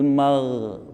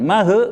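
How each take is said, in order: First: The gh sound is held steadily. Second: The gh sound is bounced with an echo. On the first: The speaker calls it right. "Mag ditahan" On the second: The speaker calls it wrong. "bukan mah, bukan"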